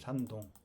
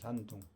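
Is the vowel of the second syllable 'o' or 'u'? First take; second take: o; u. First: The second syllable has an 'o' vowel. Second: The second syllable has a 'u' vowel. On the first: This is how Koreans say it. "우리는 중국의 산동성을 산동이라고 그래요" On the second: This is how Chinese people say it. "중국 애들은 ... 산둥성 그래요"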